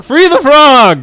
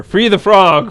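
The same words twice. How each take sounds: First: Much higher, much louder, slow hammed-up chant; full shout. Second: Chanted, loud and higher rallying cry. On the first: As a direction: bellow it like a crowd at a rally. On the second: Retold or imitated. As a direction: call it out like a protest chant. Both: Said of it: "sent an email to Nathan and said".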